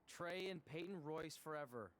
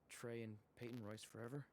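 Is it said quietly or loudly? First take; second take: loudly; quietly. First: It is said loudly. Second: It is said quietly.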